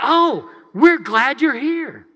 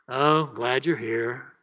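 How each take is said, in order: First: It is said warmly, with enthusiasm. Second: It is said flatly, without enthusiasm.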